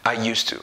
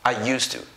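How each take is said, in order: Both takes have the same delivery.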